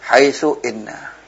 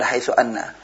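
First: The second word begins with an 'i' vowel. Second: The second word begins with an 'a' vowel. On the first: The speaker calls it right. "Jadi hamzanya maksura" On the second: The speaker calls it wrong. "bukan haitsu anna"

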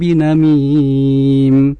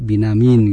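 First: The word ends with an m sound. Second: The word ends with an n sound. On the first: The speaker calls it right. "contohnya di ayat yang ke-11" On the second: The speaker calls it wrong. "tadi binamin gitu ya"

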